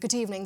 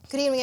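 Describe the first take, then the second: First: It is said in a British newsreader accent. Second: It is said in an American accent. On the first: "अगर मैंने BBC देखी, सो आई यूज to mimic that" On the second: "अगर American था, सो आई यूज to से"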